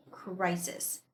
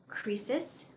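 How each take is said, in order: First: "crisis" with first vowel as eye, CRY-sis; correct pronunciation of crisis. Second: "crisis" with first vowel as long ee, KREE-sis; mispronounced crisis. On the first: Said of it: "but this is pronounced as". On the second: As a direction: say "crisis" wrongly as "kreesis". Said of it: "a lot of people mispronounce this word". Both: Shown as a demonstration.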